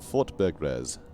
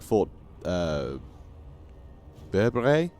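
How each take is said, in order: First: The final S sound is pronounced. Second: The final S sound is silent. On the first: The speaker calls it right. "the S is, is pronounced, apparently" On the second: The speaker calls it wrong. "I would say, like"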